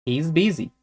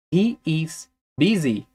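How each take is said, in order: First: Said in the usual way. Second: Slow, with a gap before "busy"; slow careful model. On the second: Shown as a demonstration. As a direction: spell it out slowly for learners. Teacher models example slowly, then connected.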